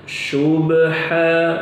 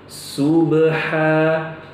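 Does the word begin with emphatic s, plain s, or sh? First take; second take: sh; plain s. First: The word begins with an sh sound. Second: The word begins with a plain s. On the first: "ini salah" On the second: "atau diubah menjadi sin... ini juga tidak tepat"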